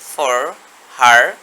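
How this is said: The r sounds are pronounced, American style. "আমেরিকানরা এখানে বলবে ফর হার"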